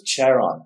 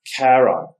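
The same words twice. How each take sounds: First: "Charon" with the CH of cherry; mistaken pronunciation. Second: Charon with a hard K, KAIR-on; "Charon" corrected to a hard K start; corrected pronunciation. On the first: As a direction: say "Charon" starting with a CH sound. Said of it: "also spelled with a C H". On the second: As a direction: say "Charon" starting with a K sound, louder. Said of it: "and maybe I was wrong, so it was". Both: Shown as a demonstration.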